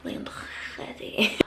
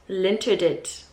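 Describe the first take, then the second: First: The name is said with a French pronunciation. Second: The name is read with a South African pronunciation. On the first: "that is how they pronounce it in French" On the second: "I'll just read it how I see it as a South African"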